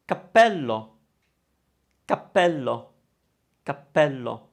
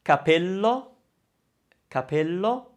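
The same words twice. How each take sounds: First: Cappello with a held, doubled p; double p. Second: Capello said lightly with one p; a quick single p in capello. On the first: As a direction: pause on the p in cappello. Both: Shown as a demonstration. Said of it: "can you hear the difference between".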